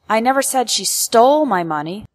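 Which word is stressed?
stole. The word stole carries the main stress. She did something else with the money, not steal it. "Implies that I never accused her of stealing, but perhaps I said that she did something else with my money"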